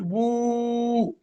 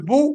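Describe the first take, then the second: First: Long "بو", u held on a level note; sustained, stretched "بو"; long vowel. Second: Short "بو" in one beat; quick "بو" with unheld u; short vowel. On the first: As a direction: draw "بو" out for several beats. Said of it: "بدل من أن أقول بو قلت بو". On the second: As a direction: say "بو" briefly, no lengthening. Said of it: "بدل من أن أقول بو". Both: Shown as a demonstration.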